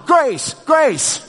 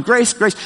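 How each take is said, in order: First: High, lightly voiced toddler copying grandpa's call, with a laugh; imitating grandson. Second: Higher, a mild retold call. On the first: Toddler grandson echoing his grandpa's call, high and laughing. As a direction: mimic a small child's echo of the call. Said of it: "this little guy is going". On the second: Walking out of the room calling for his wife, mild yell. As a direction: call her name while walking out. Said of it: "I'm yelling that as I'm getting up".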